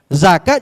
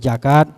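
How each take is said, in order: First: The word begins with a z sound. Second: The word begins with a j sound. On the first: "Misalnya zakat jadi sakat" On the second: "zakat jadi jakat"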